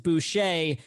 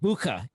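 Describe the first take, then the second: First: The surname is said with an anglicized pronunciation. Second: The surname is said with a German pronunciation. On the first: This is how the family has always said it. The speaker calls it wrong. "we've always said it was Boucher" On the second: This is the original pronunciation of the name. The speaker calls it right. "it's actually supposed to be pronounced Bucha. It's German"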